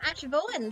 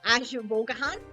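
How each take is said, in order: First: The name is short, with several letters left silent. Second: The name is longer, with every letter sounded out. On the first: "half the letters you don't pronounce" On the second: "on the off chance you do, ... That was very German"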